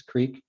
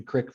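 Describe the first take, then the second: First: Said in the usual way. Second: Creek said as "crick"; rural pronunciation. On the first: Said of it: "urban kind of separation". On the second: Shown as a demonstration. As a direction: creek with a short i, like brick. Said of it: "You get that rural".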